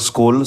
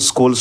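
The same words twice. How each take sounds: The two takes are said the same way.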